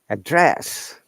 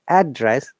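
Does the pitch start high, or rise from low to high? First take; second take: rises; starts high. First: The pitch goes from low up to high. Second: The pitch starts high on the first syllable. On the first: It is the verb, to speak to or call someone. "down intonation to upper intonation" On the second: It is the noun, the place where someone lives. "upper intonation ... then it that time it is noun"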